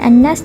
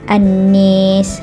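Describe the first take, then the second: First: The long vowel is a plain open a. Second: The long vowel is raised toward an e sound.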